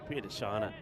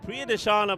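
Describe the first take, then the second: First: The name is said at normal, quieter volume. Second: The name is said noticeably louder.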